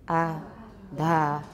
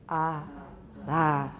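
The two takes are said the same way.

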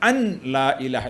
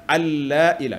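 First: The n is pronounced before a single l. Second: The n merges into a doubled l sound. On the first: The speaker calls it wrong. "maka batal sembahyangnya" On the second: The speaker calls it right. "yang semestinya diidghamkan dalam lam"

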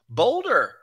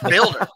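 First: The name is said like the word boulder. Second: The name is said like the word builder. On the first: The speaker calls it wrong. "People were like, boulder" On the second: The speaker calls it right. "It's builder"

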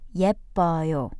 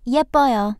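First: It is said slowly. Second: It is said fast.

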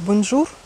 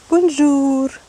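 First: The final syllable is short and plain. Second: The final syllable is long and drawn out. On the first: "если я говорю бонжур" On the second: "Тянут этот ур"

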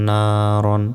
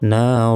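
First: The word ends with a short an sound. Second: The word ends with a long drawn a vowel. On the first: The reader continues without stopping. "র আলিফ 2 জবর রন" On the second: The reader stops on this word. "থামলে এখানে একটা জবর উচ্চারণ হবে"

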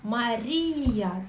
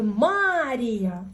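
First: The stress is on the second syllable. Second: The stress is on the first syllable. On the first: The speaker calls it right. "оця паличка... це означає наголос, що ми на цю літеру ставимо наголос" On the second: The speaker calls it wrong. "якби оця паличка стояла ось тут впереді, ми б сказали Марія. Ну, такого немає"

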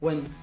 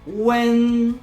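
First: The syllable is said without any tone. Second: The pitch stays high, level and long. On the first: "sylaba bez tonu" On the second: "To jest długi i wysoki dźwięk"

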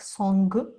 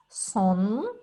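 First: The word ends with a hard g sound. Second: The word ends with a nasal sound, no g. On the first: The speaker calls it wrong. "вона не вимовляється як «сонг»" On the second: The speaker calls it right. "Вона вимовляється, начебто видуваючи повітря через ніс"

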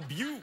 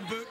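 First: The word is pronounced in an affected, fancy way. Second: The word is pronounced in a plain, ordinary way. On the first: It is too fancy to be an ordinary book. The speaker calls it right. "yes, it's that fancy. You have to call it the buke" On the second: It is just an ordinary book. The speaker calls it wrong. "You can't even call it a book"

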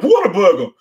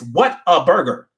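First: 'Whata' sounds like New York 'water'. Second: It is said plainly as 'what a'.

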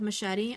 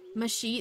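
First: It uses the standard pronunciation. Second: It uses a spelling-based pronunciation. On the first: The speaker calls it right. "instead of machete" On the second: The speaker calls it wrong. "Machete instead of machete"

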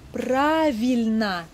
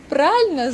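First: The word is said in its full form. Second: The word is said in a shortened, clipped form. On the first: "Правильно значит правильно" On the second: "мы часто сокращаем его"

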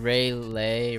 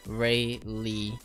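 First: The second syllable rhymes with day. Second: The second syllable rhymes with see. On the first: The speaker calls it wrong. "So not Ray Lay" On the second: The speaker calls it right. "Ray Lee it is"

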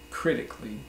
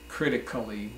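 First: The 'a' before the final 'lly' is dropped. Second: The 'a' before the final 'lly' is pronounced as a full syllable. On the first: The speaker calls it right. "we say critically" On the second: The speaker calls it wrong. "We do not say critically"

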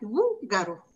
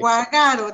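First: The stress is on the first syllable. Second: The stress is not on the first syllable. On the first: This is how native speakers say the word. The speaker calls it right. "Gugaro suena fuerte en la primera sílaba" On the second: This is how someone reading it without an accent mark would say it. The speaker calls it wrong. "Guagaro dijera, si no"

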